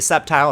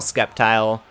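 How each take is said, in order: First: The word begins with a plain S sound. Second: The word begins with an S then K sound. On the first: This is how other people usually say it. "Sceptile is silent" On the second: This is the speaker's own preferred way. "I like saying the sea though"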